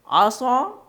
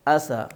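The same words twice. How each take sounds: First: "عصا" high and loud, said "asaw"; rounded heavy s in "عصا"; thick saad. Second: "عصا" lower, said as light "asaa"; simple thin s in "عصا"; thin seen. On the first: Teacher making students feel the difference, thick saad. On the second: Teacher making students feel the difference, thin seen. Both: Shown as a demonstration. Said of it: "حروف کے فرق کو محسوس".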